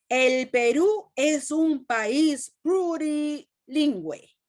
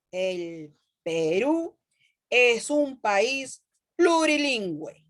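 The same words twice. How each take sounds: First: Higher, slow exclamation read with feeling; exclaimed. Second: Slow, word-by-word reading; slow deliberate reading. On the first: Teacher reading the example to her class, exclaiming. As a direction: read it as if it ends in exclamation marks. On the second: Teacher reading the example again to her students, slowly and deliberately. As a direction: spell it out slowly for the class. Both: Shown as a demonstration. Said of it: "signos de admiración".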